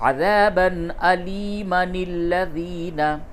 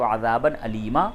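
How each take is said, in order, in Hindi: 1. Aliman अगले शब्द में सीधे मिल जाता है। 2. यह alima के बाद रुकता है, बिना n की आवाज़ के। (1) "मिला के पढ़ेंगे तो बोलेंगे" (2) "वक्फ की हालत में आप बोले अलीमा"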